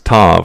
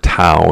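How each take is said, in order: First: The letter name ends with a clear v sound. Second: The letter name ends without a v sound.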